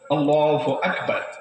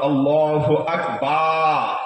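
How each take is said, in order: First: The vowel after b is short. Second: The vowel after b is drawn out long. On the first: God is the greatest. The speaker calls it right. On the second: God is the smallest. The speaker calls it wrong.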